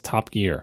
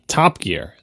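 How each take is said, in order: First: The stress falls evenly on both words. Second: The stress falls mainly on 'Top'. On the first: It is said the American way. "Equal emphasis on both syllables. Top Gear. The way we say it in America" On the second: It is said the British way. "like the British would say Top Gear"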